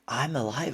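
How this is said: It sounds full of wonder and amazement.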